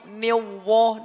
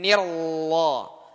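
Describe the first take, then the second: First: The r sounds like a rounded w. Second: The r is clearly trilled. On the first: The speaker calls it wrong. "ini salah" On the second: The speaker calls it right. "getarannya dijelaskan"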